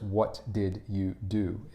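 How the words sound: Each word is said separately and carefully.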